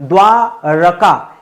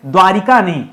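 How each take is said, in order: First: द्वारका said slowly with a short र, no इ sound; slow correct form. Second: Said in the usual way. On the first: Shown as a demonstration. Teacher correcting students, slow and deliberate. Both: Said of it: "द्वारिका नहीं, द्वारका".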